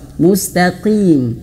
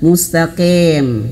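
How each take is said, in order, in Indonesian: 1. Vokal terakhirnya jelas i. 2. Vokal terakhirnya terdengar seperti e. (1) "jangan e ya tapi i" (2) "bukan mustaqim"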